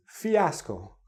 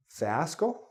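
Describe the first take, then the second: First: Fiasco said "fee-ASS-co", three syllables, slow and careful; correct fiasco. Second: Fiasco said "FASS-co", two syllables, rising as a wrong guess. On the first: Teacher corrects the students' fiasco, slowly. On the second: Teacher demos a wrong guess at fiasco. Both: Shown as a demonstration. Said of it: "No, it's fiasco".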